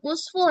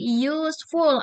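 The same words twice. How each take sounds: First: The word starts without a y sound. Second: The word starts with a y sound. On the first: The speaker calls it wrong. "jadi bukan useful ya" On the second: The speaker calls it right. "ada Y-nya di awal"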